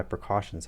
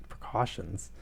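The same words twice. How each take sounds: First: Said in the usual way. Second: Precautions? repeated dryly with a falling disbelieving tone; sarcastic echo. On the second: Real, not acted. Reader mocking the character's excuse, sarcastic echo. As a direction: scoff at the word Precautions? as an understatement. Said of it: "You're pointing guns at people".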